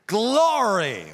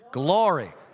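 First: It is said forcefully, with strong energy. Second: It is said plainly, without extra force.

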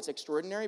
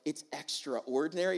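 First: The word is said as one run-together word. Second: The word is split into 'extra' and 'ordinary'. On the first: "you just say, oh, it's extraordinary" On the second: "you break it apart"

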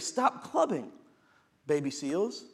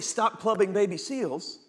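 First: There is a pause before "baby seals." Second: It is said straight through without a pause.

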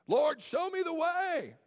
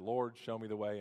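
First: It is screamed loudly and angrily. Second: It is said calmly and quietly.

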